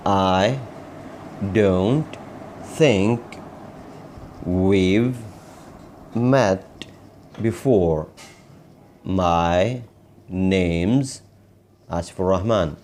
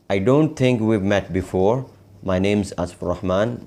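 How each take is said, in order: First: Very slow, isolated words with long pauses; word-by-word model. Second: Connected phrases, words linked; whole-sentence model. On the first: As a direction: dictate each word separately for learners. Teacher models sentence word by word. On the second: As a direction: run the practice sentence through without word gaps. Same sentence repeated as a whole. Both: Shown as a demonstration.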